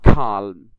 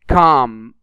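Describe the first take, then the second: First: An l sound is heard before the m. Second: No l sound is heard before the m. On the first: The speaker calls it wrong. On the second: The speaker calls it right.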